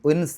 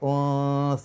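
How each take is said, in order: First: The n sound is heard clearly. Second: The n sound is hidden and indistinct. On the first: The speaker calls it wrong. "ഉൻ ഉൻസ എന്ന് പറയില്ല, എൻ എന്നുള്ള ശബ്ദം പുറത്തേക്ക് കേൾക്കാൻ പാടില്ല" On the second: The speaker calls it right. "അവ്യക്തമായ രൂപത്തിൽ നുന്നെ പറയാം"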